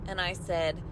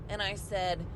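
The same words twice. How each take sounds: No difference in how they are said.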